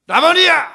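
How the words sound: It is cried out in a wailing voice.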